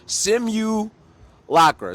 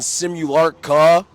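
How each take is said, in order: First: The word ends with a k then r sound. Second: The word ends with an r then k sound. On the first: The speaker calls it right. "It's like simulation" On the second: The speaker calls it wrong. "They mix up the K and the R"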